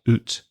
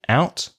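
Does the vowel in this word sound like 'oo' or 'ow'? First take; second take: oo; ow. First: The vowel is a rounded 'oo' sound. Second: The vowel is a gliding 'ow' sound.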